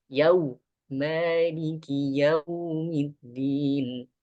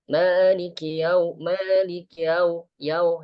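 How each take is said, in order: First: Maliki yaumiddin drawn out slowly; correct slow recitation. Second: Maliki yau clipped and hurried; wrong rushed recitation. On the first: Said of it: "Dan bacanya gini". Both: Shown as a demonstration.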